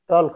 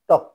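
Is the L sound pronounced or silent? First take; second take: pronounced; silent. First: An L sound is pronounced before the K. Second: No L sound is pronounced before the K. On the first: The speaker calls it wrong. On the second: The speaker calls it right.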